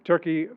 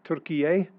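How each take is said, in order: First: The name is said with English pronunciation. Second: The name is said with Turkish pronunciation. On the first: "we've always known it as Turkey" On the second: "pronounce it as Turkish people do"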